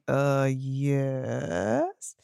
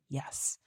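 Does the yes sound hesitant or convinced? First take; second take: hesitant; convinced. First: It is said weakly, with hesitation. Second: It is said firmly, with conviction.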